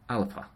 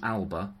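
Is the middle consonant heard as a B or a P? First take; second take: P; B. First: The middle consonant sounds like a P. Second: The middle consonant sounds like a B. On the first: The speaker calls it right. "exchange the B for a P, so alpa" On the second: The speaker calls it wrong. "So rather than alba"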